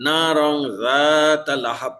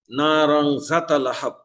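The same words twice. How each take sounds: First: জাতা with the alif madd held long, slow; না রং জাতা লাহাব with জা lengthened; correct long vowel. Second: জাতা clipped short, no madd; না রং জাতা লাহাব with জা cut short; wrong short vowel. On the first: Teacher recites the correct madd for students, held vowel. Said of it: "জালের উপরে আলিফ মাদ আছে". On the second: Teacher shows students the wrongly shortened vowel. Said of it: "আলিফ মাদ না করে হরকত দিয়ে পড়ি". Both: Shown as a demonstration.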